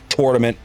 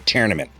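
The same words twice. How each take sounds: First: It uses an East Coast pronunciation. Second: It uses a Midwestern pronunciation.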